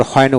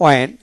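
First: হয়নে with an audible H at the start; H pronounced. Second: অয়েন starting on the vowel glide; silent H. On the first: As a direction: say হয়নে as the alternative, H sounded. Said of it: "আবার হয়নে উচ্চারিত করতে পারেন". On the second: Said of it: "এইচ উচ্চারণ হবে না". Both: Shown as a demonstration.

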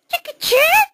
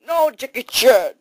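First: Very high squeaky mouse question. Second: Said in the usual way. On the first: Acted. Mouse querying which movie is on, high mouse voice. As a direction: squeak JACKIE CHAN as a tiny mouse asking. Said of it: "no more mouse voice".

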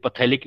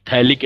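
First: "phthalic" said as pa-thalik, P pronounced; P wrongly sounded. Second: "Phthalic" said as thalik, starting on th; silent P. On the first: Teacher showing student what not to say, P sounded in "phthalic". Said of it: "नहीं बोलेंगे बेटा". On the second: Teacher correcting student's term, silent P in "Phthalic". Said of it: "पी silent होता है". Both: Shown as a demonstration.

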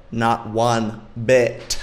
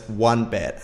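First: "Not one bit" very slowly, word by word; emphatic NOT ONE BIT. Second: Said in the usual way. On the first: Real, not acted. Emphatic answer to own question.

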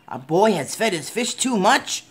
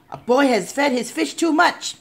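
First: Puzzled echo rising at the end; questioning echo. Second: High-pitched alarmed announcement; urgent report. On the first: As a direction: repeat it back as a question. Fireman repeats report as question. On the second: Policeman reports emergency by radio. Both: A narrator's reading.

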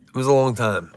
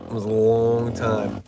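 First: Said in the usual way. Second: "long" stretched right out; stress on long. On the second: Real, not acted. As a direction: drag out the word "long". Repeats, stretching the word long.

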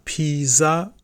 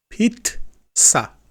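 First: Pizza said with a plain z, as piza; the mistaken Pizza without the ts sound; wrong pizza. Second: Pizza said with a clear ts, as pitsa; right pizza. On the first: Teacher to Turkish students, showing the wrong Pizza, as piza. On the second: Teacher to Turkish students, modelling Pizza with a ts sound. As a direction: Pizza with ts in the middle, pitched up. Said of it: "T S A". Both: Shown as a demonstration.

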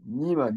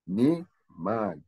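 First: "Niman" run together with an i sound, the way not to say it; teacher shows the mistake, "Niman" squeezed into one word; wrong pronunciation. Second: "Ne Man" said as two clear syllables, ne then man; teacher gives the right way, "Ne Man" with a clear e; correct Coptic pronunciation. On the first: Teacher warning students off a common mistake, demonstrating the wrong reading. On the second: Teacher showing students the right Coptic reading, careful and clear. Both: Shown as a demonstration. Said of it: "We don't say Niman".

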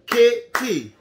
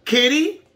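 First: KITTY broken into two beats, kit, tee; split into syllables. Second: Said in the usual way. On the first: Shown as a demonstration. Teacher showing campers how to clap syllables, kitty split in two. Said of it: "clap the syllables". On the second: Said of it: "you say the name like".

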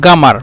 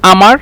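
First: গামার with a hard g for q; teacher's g-variant of গামার; dialect pronunciation. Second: আমার begun on a bare vowel, no q; teacher's dialect demo of আমার with a silent q; dialect pronunciation. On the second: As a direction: drop the opening q in আমার. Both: Shown as a demonstration. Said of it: "উচ্চারণের ক্ষেত্রে বা কথা বলার ক্ষেত্রে এটা".

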